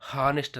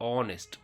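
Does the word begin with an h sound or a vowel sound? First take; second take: h sound; vowel. First: The word begins with an h sound. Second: The word begins with a vowel sound. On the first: The speaker calls it wrong. "ಹಾನೆಸ್ಟ್ ಅಂತ ಹೇಳಲ್ಲ" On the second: The speaker calls it right. "ಹೆಚ್ silent ಆಗ್ತದೆ, vowel sound ಬರ್ತದೆ"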